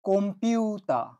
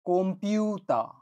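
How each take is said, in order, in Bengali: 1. p-এর আগে m ধ্বনি আছে। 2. p-এর আগে m ধ্বনি আছে।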